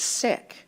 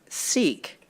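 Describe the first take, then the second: First: It uses the community's own pronunciation. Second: It uses the older British traditional pronunciation. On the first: This is how the community itself says it. The speaker calls it right. "The pronunciation is Sikh" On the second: This is the colonial-era way of saying it. The speaker calls it wrong. "in our British tradition heard"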